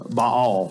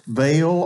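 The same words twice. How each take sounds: First: Baal said as "bahl", one open syllable; correct pronunciation. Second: Baal said as "bail", rhyming with mail; hometown pronunciation. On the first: Preacher shows the congregation the correct Baal, "bahl". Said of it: "that's the correct pronunciation". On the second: Preacher shows the congregation his hometown Baal, "bail". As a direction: say Baal the way it's always been said, "bail". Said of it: "I have heard it and we have said it". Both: Shown as a demonstration.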